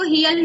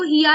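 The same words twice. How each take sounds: First: "हियल" run together with an "al" ending; wrong joined reading. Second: "हिया" ending on open long aa; correct unjoined reading. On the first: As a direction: say "हियल", article's l attached. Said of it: "इसको हियल नहीं पढ़ेंगे". ("हियल", आख़िर में ल जोड़कर) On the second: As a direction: say "हिया" with no l after it. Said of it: "इसको हिया ही पढ़ेंगे". ("हिया", बिना ल जोड़े खुला आ) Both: Shown as a demonstration.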